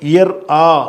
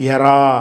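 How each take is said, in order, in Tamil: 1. குரல்வளை நிறுத்தம் இரண்டு அசைகளைப் பிரிக்கிறது. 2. குரல்வளை நிறுத்தம் இல்லாமல் அசைகள் ஒன்றாக ஓடுகின்றன. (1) "இயர் ஆ என்று சொல்லாமல்" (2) "எரா எரான்னு தான் எர் அதான் சொல்லணும்"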